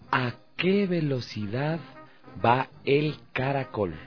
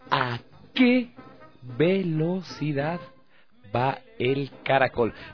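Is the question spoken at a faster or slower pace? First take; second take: faster; slower. First: The question is spoken at a normal, quicker pace. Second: The question is spoken a little more slowly.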